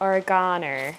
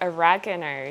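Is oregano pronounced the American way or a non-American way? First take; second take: non-American; American. First: The word is pronounced a non-American way. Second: The word is pronounced the American way. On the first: "here we call it oregano" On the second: "in America you guys call it oregano"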